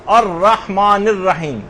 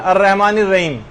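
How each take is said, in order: First: Slow الرحمن الرحیم, "ar-rahmaan ir-raheem" with full ح; correct throaty ح. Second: Quick الرحمن الرحیم with the ح swallowed, like "ar-rehman ir-reim"; wrong, slack ح. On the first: Teacher corrects the students' common mistake, careful pronunciation. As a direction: draw out الرحمن الرحیم, sounding each ح from the throat. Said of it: "بلکہ آپ کو". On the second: Teacher shows the common mistake, careless pronunciation. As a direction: slur الرحمن الرحیم, dropping the throaty ح to a weak h. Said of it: "یہ نہیں پڑھنا۔". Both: Shown as a demonstration.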